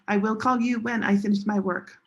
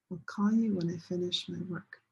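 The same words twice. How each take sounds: First: "I will call you when I finish my work" with "I will" said in full and a heavy "call"; "I will" said in full, "call" stressed; unnatural stress. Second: "I'll call you when I finish my work" with the stress on "you" and "I'll" run into "call"; natural stress grouping. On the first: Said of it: "people don't understand". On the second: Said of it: "If you say it like this, people will understand you". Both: Shown as a demonstration.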